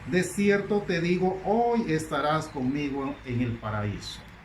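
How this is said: The pause comes before hoy.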